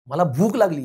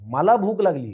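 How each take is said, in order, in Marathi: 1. जोर मधल्या शब्दावर आहे. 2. जोर पहिल्या शब्दावर आहे. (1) "ह्याच्यात महत्त्व भुकेला आहे" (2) "महत्त्व मला आहे"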